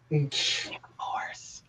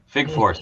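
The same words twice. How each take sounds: First: It is spoken in a whisper. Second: It is spoken in a normal voice.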